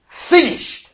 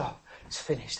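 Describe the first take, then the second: First: Finished cried out high and loud; ringing proclamation. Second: "Oh, it's finished" breathed out low and much softer; weak last gasp. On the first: Showing Jesus's single word, cried out high and loud. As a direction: throw out Finished with full force. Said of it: "it's just one word". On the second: Showing what Jesus did not say, a faint dying gasp. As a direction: let it die away like a last gasp. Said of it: "a sort of last gasp". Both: Shown as a demonstration.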